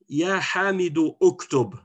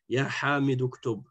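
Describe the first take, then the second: First: The second word starts with its own separate vowel. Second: The words run together with the second vowel dropped. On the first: The speaker calls it wrong. "on ne va pas dire" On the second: The speaker calls it right. "On fait la liaison directe"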